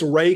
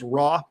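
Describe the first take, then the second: First: The vowel is a long 'a' sound. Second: The vowel is an open 'ah' sound. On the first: This is the form scholars agree on. "it's more of a long a" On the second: This is the commonly known form of the name. "this is the god that we commonly know as um, as Ra"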